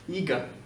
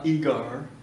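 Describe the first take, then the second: First: The final R sound is silent. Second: The final R sound is pronounced. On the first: The speaker calls it right. "quand tu as un R ou le son R, à la fin d'un mot, il ne s'entend pas" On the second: The speaker calls it wrong. "C'est pas eager, c'est plutôt américain"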